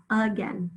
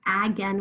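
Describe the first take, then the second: First: Again said "uh-gen"; schwa. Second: Again said "ag-en", A as in cat; wrong short A. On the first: Teacher corrects to the schwa after the wrong take, schwa. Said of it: "It's a schwa". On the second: Teacher shows what we don't say, short A. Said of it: "That's not saying again". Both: Shown as a demonstration.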